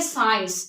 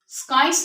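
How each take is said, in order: First: The c is silent, leaving only s. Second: The c is pronounced as a k sound. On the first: The speaker calls it right. "इसको हम पढ़ेंगे साइंस। इसमें सी क्या हो गया, silent हो गया।" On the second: The speaker calls it wrong. "स्काइस नहीं पढ़ेंगे इसको"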